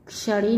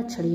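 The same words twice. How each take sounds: First: क्षणी as "kshaṛi"; mispronounced. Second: Said in the usual way. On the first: Shown as a demonstration. Teacher showing students an error, क्षणी with wrong ksh. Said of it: "नहीं होता". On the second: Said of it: "होता है".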